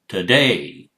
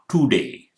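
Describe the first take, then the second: First: The first vowel is a weak schwa. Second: The first vowel is a full vowel. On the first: The speaker calls it right. "it's t" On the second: The speaker calls it wrong. "it's not today, it's not to"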